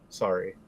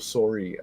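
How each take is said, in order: First: It has a mild, less Canadian accent. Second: It has a thick Canadian accent.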